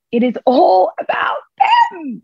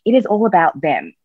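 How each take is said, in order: First: Much higher, slow, crying out the words; drawn-out, almost shouted repeat; emphatic outcry. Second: Said in the usual way. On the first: Shown as a demonstration. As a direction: throw the line out with full emphasis. Repeated line, emphatic second take.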